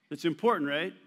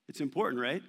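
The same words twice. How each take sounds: The two takes are said the same way.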